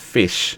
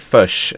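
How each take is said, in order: First: The word is said without a New Zealand accent. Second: The word is said with a New Zealand accent.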